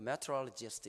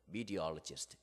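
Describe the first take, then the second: First: It is said in a high pitch range. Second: It is said in a lower pitch range. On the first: Listeners from the US could not understand it. The speaker calls it wrong. "이렇게 얘기하거든요" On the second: Listeners from the US understand it. The speaker calls it right. "미국 애들은 음역대가 조금 낮아요"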